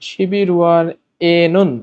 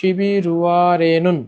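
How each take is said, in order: First: The parts are said separately, without linking. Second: The final l links into the next syllable.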